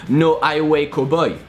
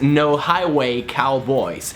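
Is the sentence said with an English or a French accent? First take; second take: French; English. First: It has short, pure French-style vowels. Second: It has long gliding English vowels. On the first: "if you were to say this sentence with a French accent" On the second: "One really famous sentence in English for that"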